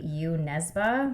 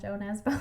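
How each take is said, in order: First: The name is said with a Norwegian pronunciation. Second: The name is said with an anglicized pronunciation. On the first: This is the original pronunciation. The speaker calls it right. "according to the pronunciation that we looked at, it's actually" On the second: This is how locals usually say it. The speaker calls it wrong. "people over here call"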